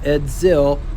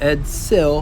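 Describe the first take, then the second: First: The middle consonant sounds like a z. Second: The middle consonant sounds like an s. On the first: The speaker calls it wrong. "not Edzil" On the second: The speaker calls it right. "I try to say Edsil"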